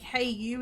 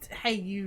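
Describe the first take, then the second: First: It sounds excited and friendly. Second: It sounds rude and mocking.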